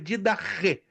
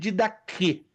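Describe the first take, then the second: First: The consonant before the last vowel is a ch. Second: The consonant before the last vowel is a k. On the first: This is how it is said in Greek. The speaker calls it right. "a pronúncia correta no grego é didache" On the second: This is how some people say it. The speaker calls it wrong. "Alguns dizem didaque"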